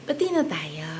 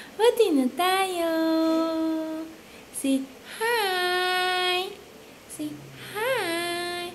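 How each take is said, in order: First: Said in the usual way. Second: Pati na tayo said higher with a lift on Pati; coaxing, pitched up. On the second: Real, not acted. Parent coaxing the baby to make peace, higher coaxing voice. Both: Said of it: "repeated coaxing".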